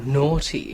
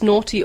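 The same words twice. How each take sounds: First: It is said in a cheeky, suggestive tone. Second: It is said in a scolding, telling-off tone. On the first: Something is risqué or flirtatious. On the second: Someone is being mildly told off.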